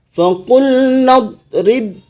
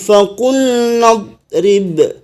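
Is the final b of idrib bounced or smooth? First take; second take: smooth; bounced. First: The final b flows smoothly into the next word. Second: It stops on the final b with a bounce. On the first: The reading continues into the next word. "ketika disambung, maka ba-nya tidak memantul lagi" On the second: The reading stops at this word. "diwakafkan atau berhenti membaca di faqul nadrib ... ketika wakaf dipantul, dipantulkan ba-nya"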